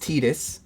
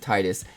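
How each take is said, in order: First: The first syllable does not sound like tide. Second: The first syllable sounds like the word tide. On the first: It follows the official form of the name. "technically, it's Titus" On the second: It links the name to ocean tides. "like the tides in an ocean"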